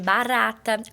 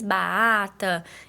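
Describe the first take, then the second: First: The r is a clear tapped r sound. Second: The r sound is left out entirely. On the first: "o som do R vibrante, que é o de barata" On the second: "Ou ela faz a omissão"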